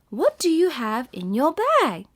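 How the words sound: It is said in a questioning tone. It sounds like a question being asked. The speaker calls it right. "you have to add the questioning tone"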